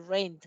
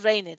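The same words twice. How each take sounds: First: "rained" as one syllable, "reind"; "rained" said as "raind", no extra syllable. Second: "rained" split as RAIN-ET, sounding the E; wrong two-syllable rained. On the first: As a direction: say "rained" with a silent E, straight into the final D. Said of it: "tenemos que decir rained". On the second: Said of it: "A la hora de pronunciar tenemos que decir". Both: Shown as a demonstration.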